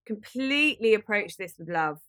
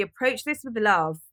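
First: Completely pressed, falling tune; stress on completely. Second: This pressed with a falling tune; stress on this. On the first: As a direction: hit the word Completely first. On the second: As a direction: lean on the word this. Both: Shown as a demonstration.

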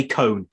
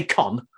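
First: "cone" with a long O, rhyming with stone; long-O pronunciation. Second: "con" with a short O, rhyming with don; short-O pronunciation. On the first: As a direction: say "cone" as the model for the vowel. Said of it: "If you take the S off". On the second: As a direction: say "con" as the rejected vowel. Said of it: "You don't say con". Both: Shown as a demonstration.

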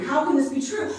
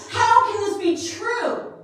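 First: Said in the usual way. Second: Higher, louder, slowed desperate plea; loud, high, slowed anguish; anguished cry. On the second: Retold or imitated. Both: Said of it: "but I was frantic".

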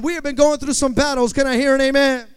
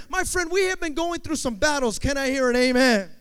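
First: Very loud, booming congregation call; insistent amen call. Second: Loud, high call to the congregation; preacher's amen call. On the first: Preacher asking the church one more time, booming shout. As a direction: push the amen call to top volume. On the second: Preacher asking the church for an amen, loud call. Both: Real, not acted. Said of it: "I'm gonna ask you one more time".

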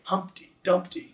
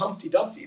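First: HUMP-ty DUMP-ty repeated, stressed syllables hit; Humpty Dumpty chanted to the beat; trochaic stress. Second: HUMP-ty DUMP-ty with weight on HUMP and DUMP; Humpty Dumpty beaten as two trochees; trochaic stress. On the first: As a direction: tap out "Humpty Dumpty" strong-weak. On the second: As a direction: bounce "Humpty Dumpty" strong-weak. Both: Shown as a demonstration. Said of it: "that's trochaic".

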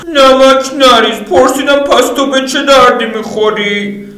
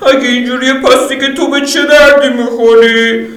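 First: High, slow and louder, leaning on پرسیدم; Lydia, insisting. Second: High, laughing taunt; high female voice scoffing; Lydia, mocking. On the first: Acted. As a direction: repeat the question, now annoyed. Lydia repeats harder. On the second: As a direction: tease him with a laugh. Lydia mocks him.

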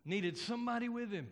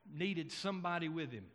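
First: "somebody" lifted higher and stressed; emphatic repeat. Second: Said in the usual way. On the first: Real, not acted. Preacher drives the point home to congregation, "somebody" stressed high. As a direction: hit "somebody" with a raised pitch, quicker overall.

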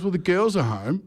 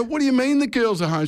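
First: Higher-pitched retold warning; imitated wife. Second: Very high, incredulous retold question; retold alarmed disbelief. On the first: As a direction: imitate a wife pointing out the problem. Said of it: "She goes". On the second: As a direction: re-enact the startled question in a high pitch. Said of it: "I go".

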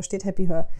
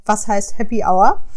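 First: "Happy Her" with hour said like her; wrong pronunciation. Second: "Happy Hour" with hour said as "auer"; slow careful "Happy Hour" with a rising question; correct pronunciation. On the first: ("Happy Her" falsch ausgesprochen wie "her") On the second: ("Happy Hour" korrekt als "auer" ausgesprochen, langsam fragend) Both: Retold or imitated. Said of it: "wie es ausgesprochen wird".

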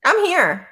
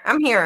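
First: I'm here popped up high and bright; host answering the guest; quick answer. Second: Said in the usual way. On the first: Real, not acted.

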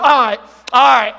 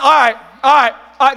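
First: Louder mocking "All right, all right." with a falling brush-off; sarcastic all right. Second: Louder mock sarcastic agreement; sarcastic all right. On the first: Preacher acting out fake agreement, mock sarcasm. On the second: Preacher mocking a sarcastic reply, loud sarcasm. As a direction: say it like you don't mean it. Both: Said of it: "That's being sarcastic".

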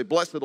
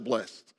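First: "blessed" said as BLESS-id; "blessed" in two syllables, bless-ed. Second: "blessed" said as BLEST; "blessed" with a silent e, like blest; one-syllable blessed. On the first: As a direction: sound the -ed in "blessed" as its own syllable. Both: Shown as a demonstration. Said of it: "Do you say blessed or blessed?".

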